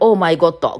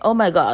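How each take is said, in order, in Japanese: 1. 日本語のカタカナの音で、平らに言います。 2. 英語のような強弱とリズムで言います。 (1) "一生懸命、オーマイゴッド、これで合ってるみたいな言ったら、違うみたいに言われて" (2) "向こうに、オーマイゴッドっていう、リズ"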